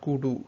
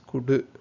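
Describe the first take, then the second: First: The final syllable is said fully and drawn out. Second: The final syllable is clipped short and barely sounded. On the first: The speaker calls it wrong. "It's not kudu" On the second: The speaker calls it right. "Here you shorten it"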